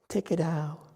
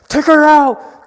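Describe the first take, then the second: First: It is said softly and gently. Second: It is yelled loudly and angrily.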